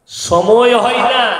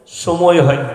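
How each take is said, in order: First: "সময় হয় না" stretched slowly and pitched higher; drawn-out mocking repeat. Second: Said in the usual way. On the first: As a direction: drag out "সময় হয় না" in a raised, emphatic voice. Excuse repeated for emphasis. ("সময় হয় না" টেনে টেনে উঁচু গলায় বলা)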